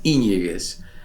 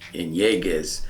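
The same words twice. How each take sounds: First: The stress is on the first syllable. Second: The stress is on a later syllable. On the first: The speaker calls it right. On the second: The speaker calls it wrong.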